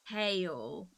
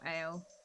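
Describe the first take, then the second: First: The word begins with a clear H sound. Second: The word begins directly with a vowel, no H. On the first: "is how it's supposed to be pronounced" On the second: "if you're talking to a Cornish person, they'll be like"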